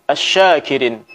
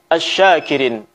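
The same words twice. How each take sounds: The two takes are said the same way.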